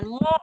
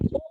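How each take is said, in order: First: The syllable starts with a pressed throat sound. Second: The syllable starts plainly without throat pressing. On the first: "Jadi tenggorokannya itu bunyinya agak ditekan" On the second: "mu biasa, mu atau hamzah"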